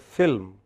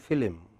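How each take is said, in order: First: The L runs straight into the M. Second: An extra vowel separates the L and M. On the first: "don't go to film" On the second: "They add an I between L and M"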